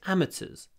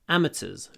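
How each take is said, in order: Both takes have the same delivery.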